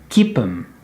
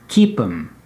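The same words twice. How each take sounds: The two takes are said the same way.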